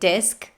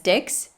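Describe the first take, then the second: First: The word ends with an 'sk' sound. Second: The word ends with a 'ks' sound. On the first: The speaker calls it right. "instead of saying disc" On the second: The speaker calls it wrong. "he says dix"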